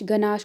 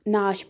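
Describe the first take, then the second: First: The initial g sound is pronounced. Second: The initial g sound is silent.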